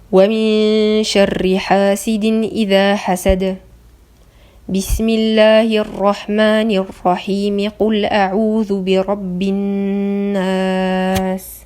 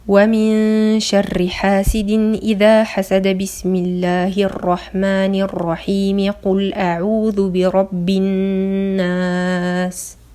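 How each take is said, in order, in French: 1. Il y a une pause seulement à la première jonction. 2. Les trois parties s'enchaînent sans pause. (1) "il y a un arrêt entre le dernier verset de Sourate Al-Falaq et Al-Basmala, mais il y a une liaison" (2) "il n'y a aucun arrêt, tout est lié"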